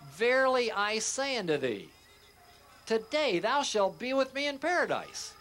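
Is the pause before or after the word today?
before. The pause comes before the word today.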